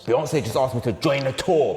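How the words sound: It is said in an angry tone.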